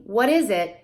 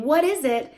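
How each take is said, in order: First: Said in the usual way. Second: Higher question; high parentese question; adult question to child. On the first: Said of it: "they're repeating". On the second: Shown as a demonstration. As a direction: ask the child. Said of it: "If you're saying".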